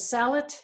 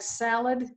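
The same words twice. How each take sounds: First: The word ends with a t sound. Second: The word ends with a d sound. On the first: "they would say salad, more like salad with a T sound at the end" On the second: "in a word like salad"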